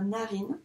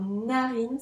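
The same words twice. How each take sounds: First: Said in the usual way. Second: "narine" with a long hummed n at the start; slow "narine", n drawn out; first sound stretched. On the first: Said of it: "la lettre N". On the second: Shown as a demonstration. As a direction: lean on the opening n of "narine". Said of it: "ce qu'on entend au début".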